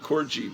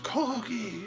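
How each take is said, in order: First: It is said with an American pronunciation. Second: It is said with a British pronunciation. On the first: The speaker calls it wrong. "I call it Corgi" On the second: The speaker calls it right. "that's pronounced Corgi, you stupid American"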